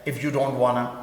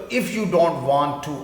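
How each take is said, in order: First: Want to is blended into one word, wanna. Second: Want to is said as two full words.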